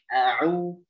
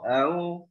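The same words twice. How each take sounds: First: The middle consonant is a clear throat sound. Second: The middle consonant is weak and barely heard. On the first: The speaker calls it right. "tapi a'u jelas" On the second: The speaker calls it wrong. "seakan-akan seperti ikhtilas ya"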